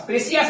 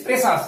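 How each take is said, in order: First: প্ৰেচিয়াছ as pre-si-as, with an extra syllable; three-syllable pre-si-as reading of প্ৰেচিয়াছ; rejected pronunciation. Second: প্ৰেচাছ as pre-sas, with no "ee" glide; teacher's corrected pre-sas for প্ৰেচাছ; two-syllable pronunciation. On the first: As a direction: put an "ee-a" into the middle of প্ৰেচিয়াছ. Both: Shown as a demonstration. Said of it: "প্ৰেচিয়াছ নহয়".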